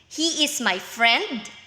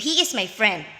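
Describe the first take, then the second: First: It is said as a doubtful question. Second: It is said as a confident statement.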